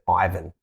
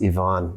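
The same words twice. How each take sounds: First: The name is said the Australian way. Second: The name is said the Ukrainian way.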